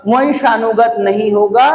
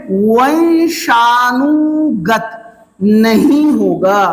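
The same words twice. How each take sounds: First: Said in the usual way. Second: वंशानुगत नहीं होगा drawn out slowly, each word weighted; slow emphatic stress. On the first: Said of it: "repeats at normal pace". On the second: Shown as a demonstration. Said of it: "teacher stresses the key term". (धीमे और ज़ोर देकर समझाना)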